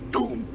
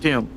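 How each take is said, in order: First: The word is said in a deep, bassy voice. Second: The word is said in a plain, light voice. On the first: The speaker calls it right. "You gotta put a little bass into it" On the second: The speaker calls it wrong. "that's not how you say it"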